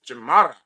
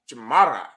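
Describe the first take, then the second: First: "chamarra" repeated, louder and firm; Mexican Spanish word. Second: "chamarra" with a Spanish r, falling; Mexican Spanish word. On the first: Teacher repeats Mexican word, louder for emphasis. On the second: Teacher pronounces Mexican word for students. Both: Shown as a demonstration. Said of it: "The way you say it in Issacharite Spanish".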